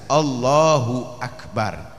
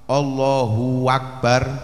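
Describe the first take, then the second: First: A clear glottal stop starts the second word. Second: A w sound links the two words together. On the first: The speaker calls it right. "hamzanya harus jelas" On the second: The speaker calls it wrong. "ojo sampai tambah wawu"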